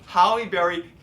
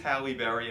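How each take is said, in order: First: The first name sounds like Howie. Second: The first name sounds like Halle. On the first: The speaker calls it wrong. "he goes Howie Berry" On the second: The speaker calls it right. "no, it is Halle Berry"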